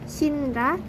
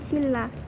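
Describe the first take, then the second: First: The middle consonants are sounded as n plus r. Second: The middle consonants are sounded as a long l. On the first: Each syllable is read separately. The speaker calls it wrong. "jika dibaca terpisah itu akan shinra" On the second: The n assimilates to the l. The speaker calls it right. "yang benar akan dilafalkan menjadi silla"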